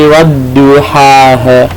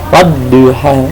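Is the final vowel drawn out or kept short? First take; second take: drawn out; short. First: The final vowel is dragged out long. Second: The final vowel is kept short. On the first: The speaker calls it wrong. "Wadduhaha itu yang pertama, jadi jangan nyeret" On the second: The speaker calls it right. "padahal itu gak ada alifnya"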